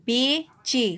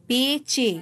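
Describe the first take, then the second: No difference in how they are said.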